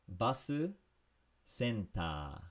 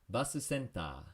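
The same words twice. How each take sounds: First: It is said slowly. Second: It is said faster.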